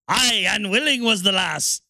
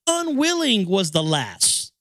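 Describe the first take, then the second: First: Lightly voiced Irish "Aye, unwilling was the lass"; hint of an Irish pirate lilt; mock Irish. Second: Slow stately "Unwilling was the lass"; read slowly. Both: Shown as a demonstration. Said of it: "written by a fucking drunkard and Irishman".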